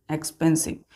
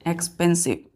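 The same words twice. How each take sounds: The two takes are said the same way.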